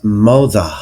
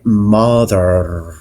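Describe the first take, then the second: First: "mother" ending in "ah", no R; London non-rhotic R. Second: "mother" with a strong final R; Bristol rhotic R. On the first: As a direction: drop the final R of "mother" like a Londoner. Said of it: "somebody from London would pronounce". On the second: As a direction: hold the R at the end of "mother". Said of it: "somebody from Bristol would say mother". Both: Shown as a demonstration.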